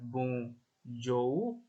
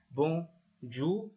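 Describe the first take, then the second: First: The 'ou' is two vowels, o then u. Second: The 'ou' is one plain u vowel. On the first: The speaker calls it wrong. "Jadi bukan ou, bukan bonjour" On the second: The speaker calls it right. "cara bacanya benar-benar U seperti di bahasa Indonesia"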